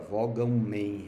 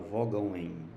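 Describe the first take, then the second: First: The nasal ending and next vowel stay separate syllables. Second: The nasal ending drops and merges with the next vowel. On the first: The speaker calls it wrong. "a gente não fala" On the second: The speaker calls it right. "a gente fala"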